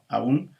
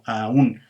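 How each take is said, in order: First: The two vowels glide together into one syllable. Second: The two vowels are split into two syllables. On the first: "en una tenemos una, este, un, un diptongo" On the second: "en la otra tendríamos algo así como un, un, un hiato"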